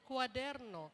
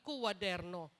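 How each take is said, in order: First: The word starts with one 'kwa' syllable. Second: The word starts with a separate 'ku' syllable. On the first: The speaker calls it right. "Sinasabi natin kwaderno" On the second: The speaker calls it wrong. "Hindi naman natin sinasabing kuwaderno"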